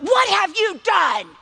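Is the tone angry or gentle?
angry. It is said in an angry, accusing tone.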